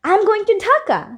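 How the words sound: It is said in an excited tone. The speaker is eager to go. "শুনে কি মনে হবে যে আমি অনেক এক্সাইটেড ঢাকায় যাওয়ার জন্য"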